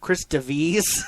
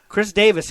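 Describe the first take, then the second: First: The surname is said in an unusual way. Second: The surname is said in the ordinary way. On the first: This is the pronunciation the family wants. "I'm gonna only say his name the way they want it said once" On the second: This is the familiar everyday pronunciation. "I'm going to go back to Davis"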